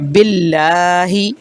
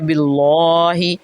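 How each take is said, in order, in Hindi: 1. l की आवाज़ हल्की और पतली है। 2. l की आवाज़ भारी और मोटी है। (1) "अल्लाह के लाम को बारीक पढ़ना था" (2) "हमने उसको मोटा पढ़ दिया"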